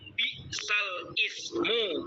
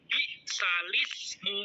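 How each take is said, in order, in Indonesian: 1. Kata-katanya diucapkan terpisah, sesuai tulisannya. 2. Kata-katanya disambung menjadi satu bentuk yang mengalir. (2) "tapi bacanya"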